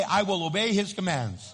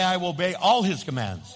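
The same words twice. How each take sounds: First: Said in the usual way. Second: "all" hit hard in "I will obey all his commands"; stress on all. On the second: Shown as a demonstration. Pastor correcting the congregation's repeat, stressing "all". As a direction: lean on "all" to make the point. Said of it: "Now say".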